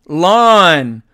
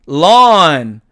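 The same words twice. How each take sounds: No difference in how they are said.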